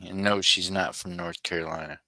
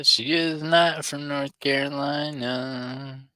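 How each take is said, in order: First: Said in the usual way. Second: Slow, high "not" stretched out; stress on not. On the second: Shown as a demonstration. Streamer to chat, slowly stressing "not". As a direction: drag out "she is not" with heavy emphasis.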